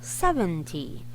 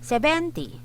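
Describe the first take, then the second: First: The stress is on the first syllable. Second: The stress is not on the first syllable. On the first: The speaker calls it right. "The stress is here uh, on the first syllable" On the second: The speaker calls it wrong. "yung mali is yung uh"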